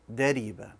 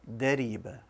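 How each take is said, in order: Both takes have the same delivery.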